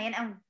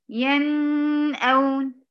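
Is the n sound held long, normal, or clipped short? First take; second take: clipped short; long. First: The n sound is clipped too short. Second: The n sound is held too long. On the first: "ولا أنقص من زمنها" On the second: "ليه بنزود؟"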